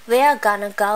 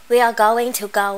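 First: Going to is reduced to gonna, said fast. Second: Going to is said in full, unreduced. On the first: "mình đọc nhanh thường là nó sẽ là cái này là văn nói" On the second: "Gonna nó là cái viết tắt của going to"

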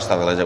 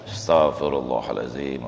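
First: It is said quickly and mechanically. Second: It is said slowly and deliberately.

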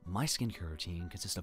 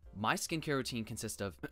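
First: It is said in a put-on character voice. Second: It is said in the speaker's ordinary voice.

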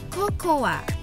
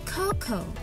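First: The final letter A is pronounced as a vowel. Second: The final letter A is not pronounced. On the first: The speaker calls it wrong. "masih banyak orang mengucapkan kata bahasa Inggris dari kata ini sebagai cocoa" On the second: The speaker calls it right. "Kita tidak usah membaca huruf A dari kata tersebut, sehingga menjadi cocoa"

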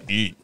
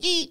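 First: It is said in a lower pitch. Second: It is yelled in a high pitch.

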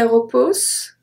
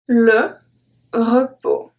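First: The final S sound is pronounced. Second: The final S sound is silent. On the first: The speaker calls it wrong. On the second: The speaker calls it right.

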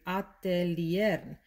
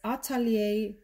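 First: Every letter is pronounced, Spanish style. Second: Some letters are left silent, French style.

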